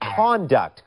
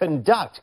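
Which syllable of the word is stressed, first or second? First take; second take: first; second. First: The stress is on the first syllable. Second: The stress is on the second syllable. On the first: It means behavior. "ถ้าเราเน้นพยางค์แรกเป็น" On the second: It means to control or manage. "ก็จะแปลว่าควบคุมหรือจัดการ"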